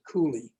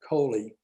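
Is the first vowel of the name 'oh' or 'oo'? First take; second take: oo; oh. First: The first vowel sounds like 'oo'. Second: The first vowel sounds like 'oh'. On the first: This is how the family in another city says it. "in Saint Augustine, they still pronounce it" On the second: This is how the speaker's family branch says it. "my part of the family has always pronounced it"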